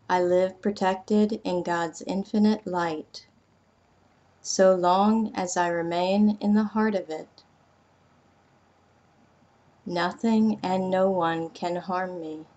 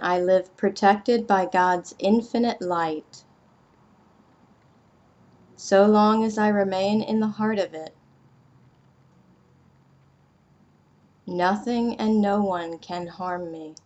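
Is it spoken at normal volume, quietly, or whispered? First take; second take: quietly; normal. First: It is spoken a little more quietly. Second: It is spoken at normal volume.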